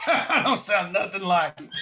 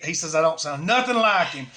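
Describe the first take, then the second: First: Chuckling through the line; a teasing, giggly mock protest; laughing. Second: Said in the usual way. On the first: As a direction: laugh it out, mocking the complaint. Laughing repeat of friend's complaint.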